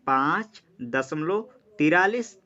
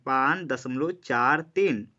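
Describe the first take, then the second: First: "तिरालीस" said as one whole number, forty-three; slow demo of the wrong way, "पाँच दशमलव तिरालीस"; wrong reading. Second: "चार तीन" said as two separate digits, slowly; slow, read each digit apart: "चार", "तीन"; careful digit-by-digit reading after the point. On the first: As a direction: read "तिरालीस" as a single number after the point. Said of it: "इसको तिरालीस नहीं पढ़ेंगे". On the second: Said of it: "हम एक एक करके पढ़ेंगे". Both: Shown as a demonstration.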